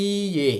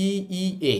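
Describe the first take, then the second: First: ই, এ with the ই stretched into one long vowel. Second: ই, ই, এ with each ই said as its own separate beat; ই, ই, এ chopped into three even syllables, no lengthening; wrong, split vowels. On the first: Teacher showing learners the right way, stretched vowel. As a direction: hold ই long, then a short এ. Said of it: "একটু টেনে বলবো". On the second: Teacher showing learners the wrong way, separate vowels. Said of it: "জাপানিজরা এটাকে এভাবে বলে না". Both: Shown as a demonstration.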